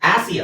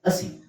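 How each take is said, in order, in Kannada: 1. ಮೊದಲ ಸ್ವರ ದೀರ್ಘ, 'aah' ತರ ಇದೆ. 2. ಮೊದಲ ಸ್ವರ ಹ್ರಸ್ವ, 'uh' ತರ ಇದೆ. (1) "ಆಸಿ ಅಲ್ಲ"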